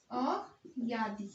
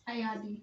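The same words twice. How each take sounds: First: अयादि stretched very slowly, syllable by syllable; drawn-out word. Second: Said in the usual way. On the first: Shown as a demonstration. Teacher to students while writing, slowly drawn-out अयादि. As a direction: spell out अयादि slowly for the class.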